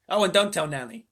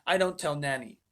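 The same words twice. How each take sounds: First: "don't" pressed louder in "don't tell Nanny"; corrected line with "don't" stressed. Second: Said in the usual way. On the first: Shown as a demonstration. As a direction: lean hard on "don't" as the fixed reading.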